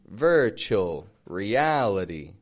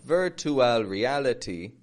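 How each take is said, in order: First: The T sounds are soft and flapped. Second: The T sounds are crisp, regular T sounds. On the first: The speaker calls it right. "That sounded all right" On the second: The speaker calls it wrong. "Not virtual reality. Neither of these T's are actually making regular T sounds"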